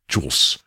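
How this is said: It is said as one syllable, Chicago-style Jools.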